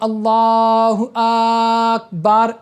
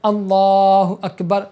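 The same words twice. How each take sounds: First: A vowel is stretched out very long. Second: The vowels are kept at normal length. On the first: The speaker calls it wrong. "अलिफ को इतना ज़्यादा खींच देना कि वो अलग हो जाए" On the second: The speaker calls it right. "तुमको सिर्फ इस तरह बोलना है"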